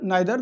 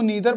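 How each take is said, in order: First: The first syllable sounds like 'nigh'. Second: The first syllable sounds like 'nee'. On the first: "but आइदर नाइदर दोनों सही है" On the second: "कई बार इसको ईदर और इसको नीदर पढ़ते हैं कुछ लोग"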